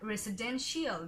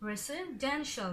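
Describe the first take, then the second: First: The ending is two syllables, like 'shee-al'. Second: The ending is one short 'shul' syllable. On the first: The speaker calls it wrong. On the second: The speaker calls it right.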